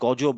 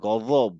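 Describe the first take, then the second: First: The middle consonant is a plain j sound. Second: The middle consonant is said with tongue between teeth. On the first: The speaker calls it wrong. "এইটা হচ্ছে গজব না" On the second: The speaker calls it right. "জিভটা বের করে"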